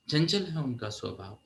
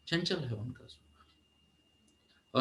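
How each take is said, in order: First: Said in the usual way. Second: Slow breathy whisper of the same line; hushed, slowed repeat. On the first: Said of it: "repeated softer as whisper". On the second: Shown as a demonstration. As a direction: drop to a slow whisper for emphasis. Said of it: "repeated as whisper".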